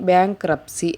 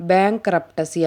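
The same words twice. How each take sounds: First: బ్యాంక్రప్సీ with the T left out; silent T. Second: బ్యాంక్రప్టసీ with an audible T after the P; wrongly voiced T in బ్యాంక్రప్టసీ; T sounded. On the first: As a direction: say బ్యాంక్రప్సీ, P running straight into the see. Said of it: "టీ యొక్క శబ్దం అనేది silent". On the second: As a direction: mispronounce it as బ్యాంక్రప్టసీ, adding a T sound before the final see. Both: Shown as a demonstration.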